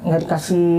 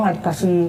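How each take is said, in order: Both takes have the same delivery.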